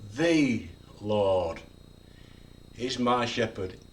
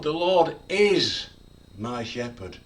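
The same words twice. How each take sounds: First: The stress is on the word the. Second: The stress is on the word is.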